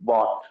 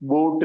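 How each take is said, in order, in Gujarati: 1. સ્વર 'boat' ના સ્વર જેવો સંભળાતો નથી. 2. સ્વર 'boat' ના સ્વર જેવો સંભળાય છે. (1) "એને આપણે બોટ બોલીશું" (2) "બોટ નહીં બોલાય"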